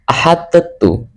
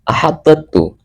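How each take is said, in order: First: The d is released with a bounce before t. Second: The d is released with a bounce before t.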